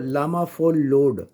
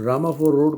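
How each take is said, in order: First: The r sounds are pronounced as l. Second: The r sounds are pronounced as r. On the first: "उन्होंने रामा four रोड को लामा four लोड" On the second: "वो आर को एल pronounce करते हैं"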